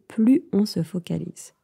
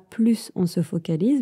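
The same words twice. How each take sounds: First: The S of plus is silent. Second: The S of plus is pronounced. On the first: The speaker calls it right. "on ne prononce pas le S" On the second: The speaker calls it wrong. "On ne dit pas"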